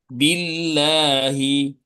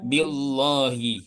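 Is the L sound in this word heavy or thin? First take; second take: thin; heavy. First: The L sound is light and thin. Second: The L sound is heavy and thick. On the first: The speaker calls it right. "dibaca tarkik atau dibaca tipis" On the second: The speaker calls it wrong. "Tidak boleh dibaca"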